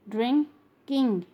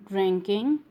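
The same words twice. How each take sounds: First: "drinking" broken into drin, king; split syllables. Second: Said in the usual way. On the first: Shown as a demonstration. Teacher showing the ing sound, word split in syllables. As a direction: pause before the ending of "drinking". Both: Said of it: "ing sound".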